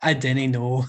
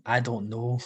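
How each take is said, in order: First: Put-on Scottish dialect; Scottish accent. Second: Said in the usual way. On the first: Shown as a demonstration. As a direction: say it as a Scot would, "dinnae". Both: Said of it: "Is that a good Scottish accent".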